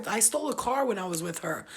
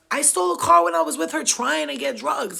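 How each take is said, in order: First: Said in the usual way. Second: Louder, higher confession; emphatic louder retelling. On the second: Real, not acted. Confessing to viewers, louder and higher. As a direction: hit the repeat harder than the first time.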